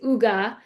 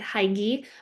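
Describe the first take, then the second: First: The first vowel sounds like 'who'. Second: The first vowel sounds like 'high'. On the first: The speaker calls it right. "but it is" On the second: The speaker calls it wrong. "I was pronouncing it completely wrong. I was pronouncing it"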